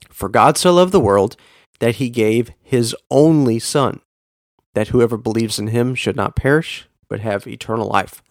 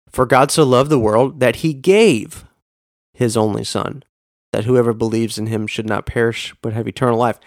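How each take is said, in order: First: The stress is on the word only. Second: The stress is on the word gave.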